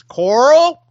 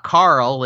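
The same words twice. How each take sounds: First: "Coral" high, loud and stretched, rising; Carl said as Coral. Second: Said in the usual way. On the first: Shown as a demonstration. Cohost imitating the actor's call, "Coral" drawn out loudly. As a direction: push "Coral" up with a long rounded OR vowel. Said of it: "it's not Carl, it's Coral". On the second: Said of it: "it's not Carl".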